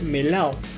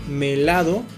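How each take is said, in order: First: The d between the vowels is dropped. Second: The d between the vowels is pronounced. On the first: "también suele perderse la D intervocálica" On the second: "en la palabra melado"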